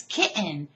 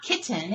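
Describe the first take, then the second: First: "kitten" as KIT'-n, T swallowed; insisted-on pronunciation. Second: "kitten" as KIT-ten, T fully sounded; rejected pronunciation. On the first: Teacher acting out the debate, "kitten" with a swallowed T. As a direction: catch the T of "kitten" in the throat. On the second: Teacher acting out the debate, "kitten" with a full T. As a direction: release the T in "kitten". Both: Shown as a demonstration. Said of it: "It's not kitten, it's kitten".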